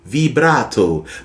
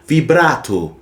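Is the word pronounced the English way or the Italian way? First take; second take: Italian; Italian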